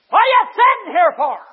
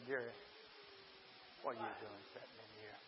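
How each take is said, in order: First: Sudden high, thunderous shout; booming-loud, high-pitched scolding from above; Holy Ghost. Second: Very low, hushed voice of God; quiet, low inner voice; small still voice. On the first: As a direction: blast the question out as a divine rebuke. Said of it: "the Holy Ghost of God said". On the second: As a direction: drop right down to a soft, gentle prompting. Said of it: "And that small, still voice said". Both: Retold or imitated.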